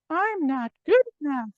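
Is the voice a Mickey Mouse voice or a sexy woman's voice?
Mickey Mouse. It is said in a Mickey Mouse voice.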